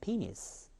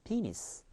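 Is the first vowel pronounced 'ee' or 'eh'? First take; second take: ee; ee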